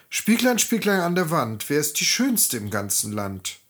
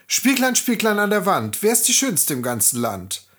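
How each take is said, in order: First: Lightly voiced vain queen; a hint of a proud queen; queen asking mirror. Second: Queen asking mirror. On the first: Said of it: "fragte sie". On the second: Acted. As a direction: call out to the mirror proudly. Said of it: "Als diese dann ihren Spiegel fragte".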